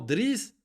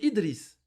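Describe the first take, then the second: First: The name starts directly with the consonant cluster. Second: The name starts with a short i vowel. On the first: The speaker calls it wrong. "C'est faux" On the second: The speaker calls it right. "Normalement, Driss, c'est Idriss"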